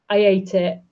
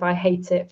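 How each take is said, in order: First: The h at the start of 'hate' is dropped. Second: The h at the start of 'hate' is pronounced.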